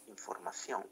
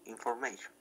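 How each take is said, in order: First: Said in the usual way. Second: "information" said the English way, in-for-MAY-shun; English pronunciation. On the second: Shown as a demonstration. Teacher contrasting the English word with Spanish for the class, in careful English.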